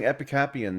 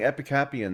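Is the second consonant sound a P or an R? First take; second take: P; P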